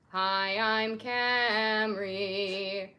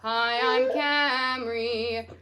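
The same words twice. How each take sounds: First: It is spoken at a natural, low chest pitch. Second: It is spoken in chest voice at a higher pitch. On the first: "just kind of using your natural voice and saying your name" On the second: "You can even bring that up"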